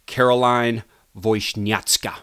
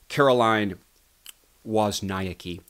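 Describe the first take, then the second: First: The surname is said with a Polish pronunciation. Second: The surname is said with an English pronunciation. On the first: The speaker calls it right. "how her last name is supposed to be pronounced in the Polish" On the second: The speaker calls it wrong. "which is the incorrect pronunciation"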